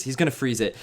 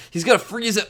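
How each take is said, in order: First: Said in the usual way. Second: High, anguished melodramatic repeat. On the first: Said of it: "I was more melodramatic". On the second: Real, not acted. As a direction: cry it out melodramatically. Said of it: "I was more melodramatic than I needed to be".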